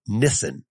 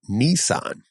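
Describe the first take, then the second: First: The first syllable has a short 'ih' vowel. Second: The first syllable has a long 'ee' vowel. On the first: The speaker calls it wrong. "doesn't have a N-I-H sound like that" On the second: The speaker calls it right. "The all I sounds in Japanese are like ni"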